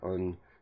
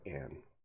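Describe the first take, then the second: First: The vowel is a weak, reduced 'uh' sound. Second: The vowel is a full, clear 'a' sound. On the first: "If you're talking fast in a sentence, normally you say a or un" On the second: "You enunciate slowly, you would say a or an"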